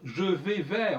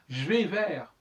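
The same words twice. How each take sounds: First: The consonants are each sounded separately. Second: The consonants are dropped and run together. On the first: The speaker calls it wrong. "on va pas dire" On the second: The speaker calls it right. "on dit je vais vers"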